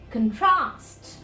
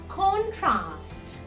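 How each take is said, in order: First: The stress is on the second syllable. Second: The stress is on the first syllable. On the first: It is used as a verb. "in the verb form" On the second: It is used as a noun. "in the noun form"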